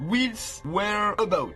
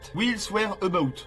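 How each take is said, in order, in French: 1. Le nom est prononcé avec un accent marqué. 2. Le nom est prononcé sans accent marqué.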